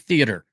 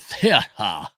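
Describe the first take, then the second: First: It is said in a plain American accent. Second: It is said in a put-on British-style accent. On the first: "you just say theater" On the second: "Or as if you're a normal person who isn't British"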